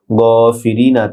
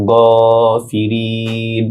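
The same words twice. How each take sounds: First: গ ফিরি না with final "na" voiced; unpaused form. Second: ফিরিন with "ee" held long into a closed "n"; stopped, long madd. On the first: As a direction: say ফিরি না ending on an open vowel. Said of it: "নুনের জজম হবে ওয়াকফ হওয়ার কারণে". (ফিরি না, শেষে আ-ধ্বনি সহ) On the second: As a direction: stretch the last vowel of ফিরিন, slowly. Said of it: "তিন আলিফ লম্বা হবে". (ফিরিন তিন আলিফ টেনে থামা) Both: Shown as a demonstration.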